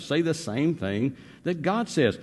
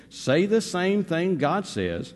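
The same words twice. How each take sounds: First: Said in the usual way. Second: "Say the same thing God says" slowed and weighted on every word; slow emphatic line. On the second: Shown as a demonstration. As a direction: lay down each word slowly.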